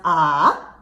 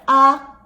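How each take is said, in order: First: The pitch dips down, then rises again. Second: The pitch stays high and level. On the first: "third tone falls in pitch, and it goes up again" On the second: "the first tone is high and remains level"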